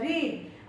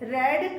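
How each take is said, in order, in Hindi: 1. स्वर लंबा है, 'reed' जैसा। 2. स्वर छोटा है, 'red' जैसा। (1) "प्रोनाउंसिएशन भी बदल जाएगा, वहां हो जाएगा रीड" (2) "रेड मतलब होता है पढ़ा"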